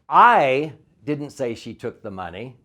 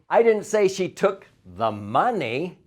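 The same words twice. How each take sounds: First: The stress falls on the word I. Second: The stress falls on the word money.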